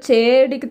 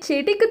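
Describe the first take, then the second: First: The e vowel is long. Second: The e vowel is short. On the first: The speaker calls it wrong. "சொல்ல மாட்டாங்க" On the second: The speaker calls it right. "சொல்லுவாங்களோ"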